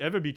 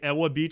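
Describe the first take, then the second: First: The first word has a V sound. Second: The first word has a W sound. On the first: The speaker knows the place. The speaker calls it right. "pronouncing the W in, in, in Eva Beach as a V" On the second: The speaker has never been there. The speaker calls it wrong. "say Ewa Beach, it's like, okay, you haven't been there"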